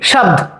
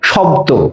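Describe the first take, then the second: First: The word ends on a consonant cluster. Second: The word ends on an 'o' vowel. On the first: "উচ্চারণটা ওই যুক্ত ব্যঞ্জনে শেষ হয়ে যায়।" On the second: "এখানেও সেই ও ধ্বনির উচ্চারণ"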